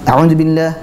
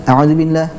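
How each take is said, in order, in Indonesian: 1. Vokal panjangnya dipendekkan. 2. Vokal panjangnya dipendekkan.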